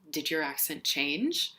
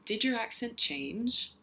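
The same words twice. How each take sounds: First: The voice rises simply toward the end. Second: The pitch loops up and down before ending. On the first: "asking a question with a rising tone" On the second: "with a looping sort of um, intonation"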